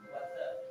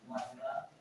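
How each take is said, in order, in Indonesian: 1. Bunyi T terdengar seperti D, ini aksen Amerika. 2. Bunyi T-nya jelas, ini aksen British. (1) "American aksen itu" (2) "contoh British itu"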